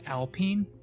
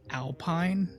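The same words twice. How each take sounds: First: It is said with a French-style pronunciation. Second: It is said with an ordinary English pronunciation. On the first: It names the French-based team. "But it's pronounced alpine" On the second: It names the mountain landscape. "like the landscape with like the pine trees"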